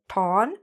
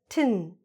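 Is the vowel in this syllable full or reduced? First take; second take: full; reduced. First: The syllable has a full, clear vowel. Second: The syllable has a short, reduced vowel. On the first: The speaker calls it wrong. "not ton" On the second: The speaker calls it right. "but tin"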